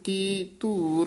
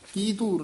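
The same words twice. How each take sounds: First: A short pause separates the two words. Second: The two words run together without a pause. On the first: The speaker calls it right. "ਇੱਥੇ ਠਮਕ ਲਾ ਕੇ ਧੂਰ" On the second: The speaker calls it wrong. "ਕੀ ਧੂਰ ਨਹੀਂ ਬੋਲਣਾ"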